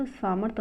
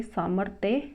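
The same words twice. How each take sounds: First: सामर्थ ending on rth; incorrect form. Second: सामर्थ्य ending in thya; correct form. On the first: Teacher rejecting the misspelling, सामर्थ without final ya. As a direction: say सामर्थ as saa-marth. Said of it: "सामर्थ अशुद्ध है". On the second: Teacher giving the correction, सामर्थ्य with final ya. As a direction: say सामर्थ्य as saa-marth-ya. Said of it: "सामर्थ्य होता है". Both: Shown as a demonstration.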